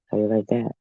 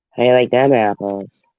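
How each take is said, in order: First: Said in the usual way. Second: "them" punched louder in "How you like them apples?"; stress on them. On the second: Shown as a demonstration.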